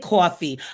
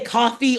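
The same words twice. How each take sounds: First: It is said with a New York accent. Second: It is said with a standard American accent. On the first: "I have a particular accent... you must be from New York or New Jersey" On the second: "I don't say coffee"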